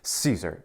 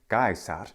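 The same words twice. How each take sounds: First: It is said in English pronunciation. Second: It is said in classical Latin pronunciation. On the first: "in English, we receive that name through French" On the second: "In classical Latin pronunciation"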